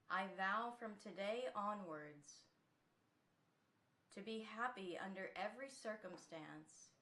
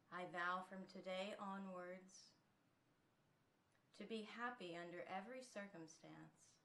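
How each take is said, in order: First: It is spoken loudly in a strong voice. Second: It is spoken more quietly and softly. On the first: "So let's start first out loud" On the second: "taking it a little softer"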